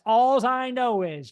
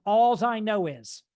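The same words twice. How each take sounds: First: Alls said loud and slow; stress on Alls. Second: Alls drawn out slowly and stressed. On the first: Coach repeating Alls for the class, louder and slower. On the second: Coach telling students to write down Alls, stressed slowly. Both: Shown as a demonstration. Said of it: "A L L S".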